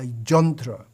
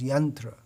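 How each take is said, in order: First: The word begins with a J sound. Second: The word begins with a Y sound.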